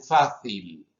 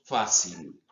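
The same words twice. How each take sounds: First: "fácil" con la c interdental, a la española; fricativa interdental. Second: "fácil" con seseo, la c como s. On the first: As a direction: say "fácil" with a Spanish th sound for the c. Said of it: "los españoles la han hecho interdental fricativa". ("fácil" con la lengua entre los dientes) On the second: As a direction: say "fácil" with an s sound for the c. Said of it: "sino al dento alveolar". ("fácil" con s dentoalveolar) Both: Shown as a demonstration.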